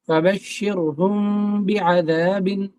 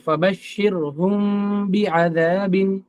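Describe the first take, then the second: No difference in how they are said.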